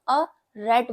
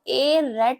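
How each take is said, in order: First: The article is a weak 'uh' sound. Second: The article is a full 'ay' sound. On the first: The speaker calls it right. "इसको अ rate बोलेंगे" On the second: The speaker calls it wrong. "इसको ए rate नहीं बोलेंगे"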